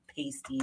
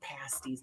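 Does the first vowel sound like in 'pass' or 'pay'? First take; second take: pay; pass. First: The first vowel sounds like in 'pay'. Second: The first vowel sounds like in 'pass'. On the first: The word names coverings strippers wear. The speaker calls it wrong. "not pasties. Pat pasties are what strippers wear" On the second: The word names a baked pastry. The speaker calls it right. "they're pasties"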